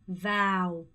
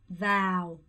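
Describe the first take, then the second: No difference in how they are said.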